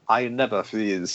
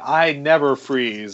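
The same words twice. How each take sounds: First: It is said in a put-on Wakandan accent. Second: It is said in the speaker's ordinary accent.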